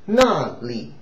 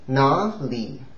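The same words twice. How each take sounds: First: The first syllable is in the fourth tone. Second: The first syllable is not in the fourth tone. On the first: It means there. "the first character is the fourth intonation" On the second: It means where. "Where is 哪里?"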